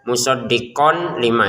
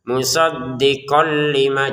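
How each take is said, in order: First: The n is pronounced clearly before l. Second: The n merges into l without nasal sound. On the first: The speaker calls it wrong. "jangan dibaca musaddiqon lima, itu kan jelas" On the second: The speaker calls it right. "kita masukin ya dengan ke lamnya kemudian tanpa dengungan"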